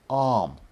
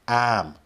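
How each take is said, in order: First: British accent, with no r sound. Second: Boston accent, with no r sound. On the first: "in a British accent, it would be something like" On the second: "I don't have a Boston accent either, but it would be something like"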